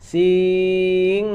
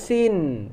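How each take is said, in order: First: The word ends with a hidden nasal ng sound. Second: The word ends with a clear n sound. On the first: The speaker calls it right. "bukan sin tapi sing" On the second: The speaker calls it wrong. "Kalau sin berarti ikhfa-nya kita sudah kita hilangkan, maka salah bacaannya"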